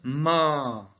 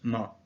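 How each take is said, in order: First: The vowel is held long at one pitch. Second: The syllable is short with a neutral tone. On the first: It means mother. "On va prolonger le a" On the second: It marks a question. "Un ton neutre"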